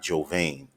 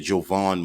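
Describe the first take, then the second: First: The second syllable has a long 'ay' vowel. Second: The second syllable has a short 'a' vowel. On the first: The speaker calls it wrong. "not Jovain. I was saying Jovain previously" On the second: The speaker calls it right. "a proper pronunciation to his name. It's Elijah Jovan McClain"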